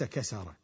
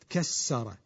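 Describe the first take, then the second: First: The middle consonant is single and short. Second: The middle consonant is doubled and held longer. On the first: The action is plain, without intensity. "وليس كسر" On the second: The action is intensified and emphatic. "بالفعل المشدد كسر"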